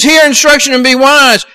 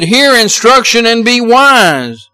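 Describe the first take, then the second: First: "Hear instruction and be wise" pitched higher, "Hear" hit hard; emphatic repeat. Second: "Hear instruction and be wise" read slowly, stress on "Hear"; scripture reading. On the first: Preacher repeating the verse to drive it home, higher and emphatic. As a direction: lift it higher and punch "Hear". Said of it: "Where he says". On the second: Preacher reading Proverbs to the congregation, slow and steady. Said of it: "Solomon wrote and he said". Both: Acted.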